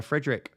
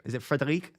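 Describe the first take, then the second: First: Said in the usual way. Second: Frederic said the French way, fre-de-REEK; French pronunciation. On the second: Shown as a demonstration. Asking a new member if his name is French, French pronunciation. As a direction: try Frederic as a French name with the stress at the end. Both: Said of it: "are you French or is it just Frederick".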